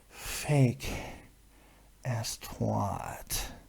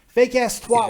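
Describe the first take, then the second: First: It is said in a sexual, seductive way. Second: It is said in a plain, neutral way.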